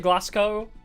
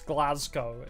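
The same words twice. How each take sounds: First: The middle consonant is an s sound. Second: The middle consonant is a z sound. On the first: This is the speaker's own habitual way. The speaker calls it wrong. "I say Glasgow" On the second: This is how it is meant to be said. The speaker calls it right. "it sounds like a Z sound"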